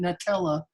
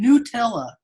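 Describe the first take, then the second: First: The first syllable sounds like 'nut'. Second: The first syllable sounds like 'new'. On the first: "I've been saying Nutella my entire life" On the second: "this commercial is on T V saying Nutella"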